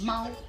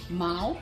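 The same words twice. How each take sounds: First: The syllable is said with the first tone. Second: The syllable is said with the second tone. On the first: "The first tone is" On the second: "the second tone is"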